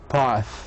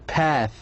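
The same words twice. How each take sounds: First: It is said in a British accent. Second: It is said in an American accent. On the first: "So in a British, they say path" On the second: "In American they say path like this way"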